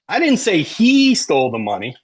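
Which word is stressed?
he. The stress falls on the word he. Someone other than him stole it. "Maybe Maria did, right?"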